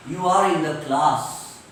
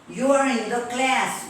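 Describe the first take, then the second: First: CLASS with long open "ah", "klaas"; lower, broad vowel on CLASS; British class. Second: CLASS with front "a" as in cat; cat vowel stretched in CLASS; American class. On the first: Teacher switching to British example, CLASS as "klaas". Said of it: "In British English". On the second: Teacher drilling American example, CLASS with cat vowel. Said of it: "In American English". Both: Shown as a demonstration.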